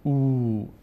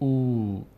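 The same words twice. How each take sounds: Both takes have the same delivery.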